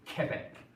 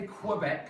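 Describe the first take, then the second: First: It begins with a plain k sound. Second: It begins with a kw sound. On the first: The speaker calls it right. "there's no W coming off of it, it's just like a K" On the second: The speaker calls it wrong. "we don't say Quebec like we would in English"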